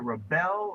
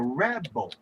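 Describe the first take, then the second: First: The stress is on the second syllable. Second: The stress is on the first syllable. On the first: It is used as a verb. "a verb that has the accent on the second syllable" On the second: It is used as a noun. "put the accent on the first syllable, you have created a noun"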